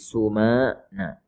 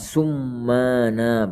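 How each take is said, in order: First: The m sound is short and single. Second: The m sound is held long and doubled. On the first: The speaker calls it right. "dengan mimnya ditakhfif maksudnya tidak ditasydid" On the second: The speaker calls it wrong. "Bukan summana, bukan"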